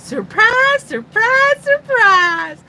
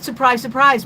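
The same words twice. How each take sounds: First: Loud, high North Carolina drawl impression; Gomer. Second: Said in the usual way. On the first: Host doing a viewer's requested catchphrase, loud North Carolina accent. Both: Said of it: "more like Gomer's North Carolina accent".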